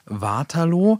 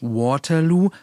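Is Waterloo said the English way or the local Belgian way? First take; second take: local Belgian; English. First: It is said with a local Belgian-style pronunciation. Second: It is said with an English-style pronunciation. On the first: The speaker calls it right. "sondern Waterloo. Das ist nämlich ein Dorf in Belgien" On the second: The speaker calls it wrong. "es heißt auch nicht Waterloo"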